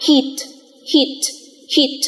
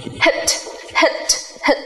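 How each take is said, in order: First: "heat" said with a long ee, repeated; teacher modelling a word for the class; model pronunciation. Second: "hit" said with a short, clipped i, repeated; teacher modelling a contrasting short vowel; model pronunciation. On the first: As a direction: stretch the ee in "heat". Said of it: "những ví dụ khác như". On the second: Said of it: "Hoặc". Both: Shown as a demonstration.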